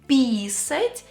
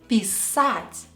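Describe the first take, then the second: First: The stress is on the first syllable. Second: The stress is on the second syllable. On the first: It means to pee. The speaker calls it wrong. "if by mistake you will stress the E letter" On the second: It means to write. The speaker calls it right. "means to write if you stress the letter A"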